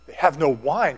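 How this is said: It is said in a shocked, disbelieving tone. The lack of wine is a surprising scandal. "can you believe that?"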